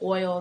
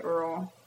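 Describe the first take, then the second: First: The word has an 'oy' vowel. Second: The word has an 'er' vowel. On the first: "instead of oil" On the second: "they say Earl"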